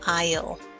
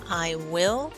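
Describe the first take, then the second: First: It is said as one contracted word. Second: It is said as two full words.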